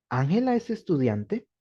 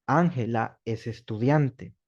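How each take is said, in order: First: Rising question tone at the end; rising intonation question; question tune. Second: Falling statement tone, slow; slow falling declarative; statement tune. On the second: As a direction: say it as a flat fact ending down. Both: Shown as a demonstration. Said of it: "lo dije en distinto tono de voz".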